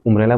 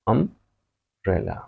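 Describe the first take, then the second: First: The first vowel is a rounded 'oo' sound. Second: The first vowel is an open 'uh' sound. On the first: The speaker calls it wrong. "क्या मैं इसको उम्ब्रेला बोलता हूँ? नहीं" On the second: The speaker calls it right. "इसको मैं बोलता हूँ अम्ब्रेला"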